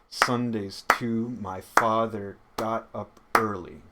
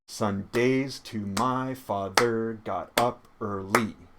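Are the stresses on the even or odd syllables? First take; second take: odd; even. First: Stresses fall on the odd syllables. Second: Stresses fall on the even syllables. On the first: The speaker calls it right. "if we clap on the stress" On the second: The speaker calls it wrong. "read this as though it were iambic pentameter"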